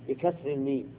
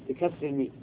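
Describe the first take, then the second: Both takes have the same delivery.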